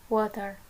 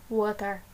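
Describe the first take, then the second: No difference in how they are said.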